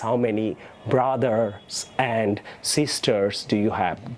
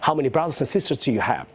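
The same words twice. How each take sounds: First: It is said slowly and haltingly. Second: It is said fluently at normal speed.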